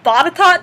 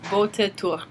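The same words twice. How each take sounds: First: The name is said differently from its spelling. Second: The name is said the way it's spelled. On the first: This is how the name is actually said. "so that's how you say it, but it's not how you spell it" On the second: This is how the spelling suggests it is said. "It looks like Botetourt"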